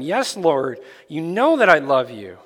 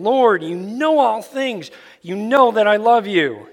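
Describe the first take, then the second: First: Said in the usual way. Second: Higher, louder, pleading answer; grieved Peter insists, voice raised; Peter, hurt at the third asking, pleads. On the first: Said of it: "He said to him". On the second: Acted. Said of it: "Peter was grieved".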